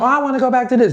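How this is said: It is said in a female voice.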